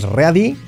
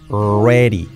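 First: The r sounds like a Spanish r. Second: The r sounds like an English r. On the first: The speaker calls it wrong. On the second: The speaker calls it right.

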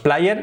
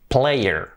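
First: The word is read with Spanish-style vowels. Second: The word is said with English vowels. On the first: The speaker calls it wrong. "Nunca decimos player" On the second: The speaker calls it right. "decimos player"

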